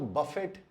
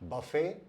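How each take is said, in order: First: The word ends with a clear t sound. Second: The word ends on a vowel without t. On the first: The speaker calls it wrong. "अगर आपने इसको बफेट या बुफेट बोला तो ये उच्चारण गलत है।" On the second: The speaker calls it right. "इसका सही उच्चारण है बफे या बुफे।"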